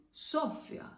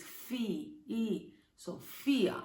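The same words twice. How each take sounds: First: Sophia with SO stressed, the rest short; stress on first syllable. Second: Sophia slowly, with FI long and strong; stress on middle syllable. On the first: Teacher showing a what-if accent on O, Sophia stressed on SO. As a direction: say Sophia as SO-fya, punching SO. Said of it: "If it had an accent on O". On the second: Teacher correcting to the real accent, Sophia stressed on FI. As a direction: say Sophia as so-FEE-a, leaning on FEE. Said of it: "but it doesn't". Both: Shown as a demonstration.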